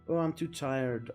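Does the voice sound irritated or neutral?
neutral. It is said in a neutral voice.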